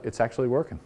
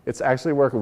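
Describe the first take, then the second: First: Said in the usual way. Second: "working" pressed down firmly; emphatic repeat. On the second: Shown as a demonstration. Speaker to fleet owners insisting it works, emphatic. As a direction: say "working" again, firmer, with a falling hit.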